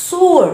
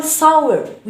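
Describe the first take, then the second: First: "sour" with an OO glide, SOO-er; "sour" pronounced like sewer; teacher's preferred sour. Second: "sour" with an OW glide, SAU-er; "sour" opened up from AH to W; rejected sour. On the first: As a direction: round the vowel of "sour" to OO. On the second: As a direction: say "sour" rhyming with "flower". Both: Shown as a demonstration. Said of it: "لا نقول sour".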